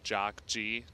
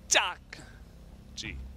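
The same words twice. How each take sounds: First: The first J is a plain English J. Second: The first J is a hard, tense J. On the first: The speaker calls it wrong. "pronouncing it just in English like Jock G, normal J" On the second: The speaker calls it right. "it should be a hard, like thick J sound"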